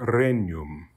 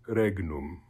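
First: The GN sounds like the NY in canyon. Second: The GN is said as a hard G then N. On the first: This is the church pronunciation. "it's got the kind of NY sound of canyon" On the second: This is the classical pronunciation. "classical pronunciation would be"

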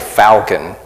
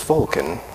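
First: It is said with a Southern Arkansas pronunciation. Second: It is said with a standard pronunciation. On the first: The speaker calls it wrong. "I'm from South Arkansas, so I say Falcon" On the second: The speaker calls it right. "I think the proper pronunciation is Falcon"

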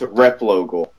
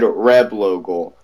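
First: The first syllable ends with a p sound. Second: The first syllable ends with a b sound. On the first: The speaker calls it right. "It's Reblogal" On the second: The speaker calls it wrong. "He said Reblogal"

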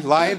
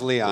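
First: The name sounds like the word lion. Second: The name starts with a long 'ee' sound. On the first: The speaker calls it wrong. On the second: The speaker calls it right.

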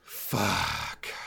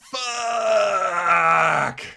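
First: It sounds disappointed and deflated. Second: It sounds frustrated and explosive.

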